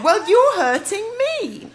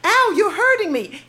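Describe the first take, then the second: First: Giggling through a high, louder teasing reply; laughing retort. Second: Put-on light Canadian accent, a high yelp on Ow; imitating his cute Canadian protest, a little higher. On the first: Retold or imitated. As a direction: throw it back at him while laughing. Mocking retort back at him. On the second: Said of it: "in a very cute accent".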